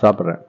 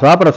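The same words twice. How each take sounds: First: The reply is said in a calm, plain way. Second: The reply is said with strong, insistent force. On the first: A simple answer to a question. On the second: The speaker insists after being asked repeatedly.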